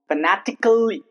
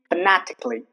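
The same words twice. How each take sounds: First: The a in the ending is sounded. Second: The a in the ending is silent. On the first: The speaker calls it wrong. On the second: The speaker calls it right.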